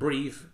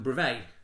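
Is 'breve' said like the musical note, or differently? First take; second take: musical note; differently. First: It sounds like the musical note breve. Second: It sounds unlike the musical note breve. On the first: The speaker calls it wrong. "which is because it's spelled B-R-E-V-E, like the musical note" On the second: The speaker calls it right. "But apparently it's frenulum breve"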